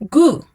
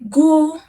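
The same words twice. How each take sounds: First: The pitch falls sharply from high. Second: The pitch stays high and level.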